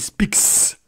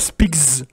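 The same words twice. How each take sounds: First: The final sound is a voiceless s. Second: The final sound is a voiced z. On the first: The speaker calls it right. "mais speaks, parce que c'est un K" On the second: The speaker calls it wrong. "on ne dit pas speaks"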